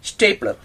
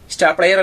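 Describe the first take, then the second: First: The first syllable sounds like 'stay'. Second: The first syllable sounds like 'star'. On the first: The speaker calls it right. "ഇതാണ് സ്റ്റേപ്ലർ" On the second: The speaker calls it wrong. "ഇത് സ്റ്റാർ പ്ലെയർ അല്ല"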